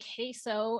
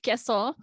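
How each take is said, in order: First: It is said with an English-style accent. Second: It is said with a Spanish accent. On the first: This is how some outsiders say it. The speaker calls it wrong. "these women who say queso and think that's the pronunciation" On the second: This is the proper pronunciation. The speaker calls it right. "instead of queso"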